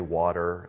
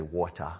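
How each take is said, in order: First: "water" with the American r at the end; American "water", r sounded at the end; American pronunciation. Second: "water" with no r at the end, British style; Kenyan pronunciation. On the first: Shown as a demonstration. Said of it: "And then we say". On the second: Retold or imitated. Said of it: "and they say".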